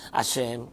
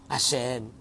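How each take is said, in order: Both takes have the same delivery.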